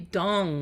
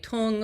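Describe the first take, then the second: First: The name is said as dong. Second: The name is said as tung. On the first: The speaker calls it right. "but it's really dong" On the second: The speaker calls it wrong. "people say tung"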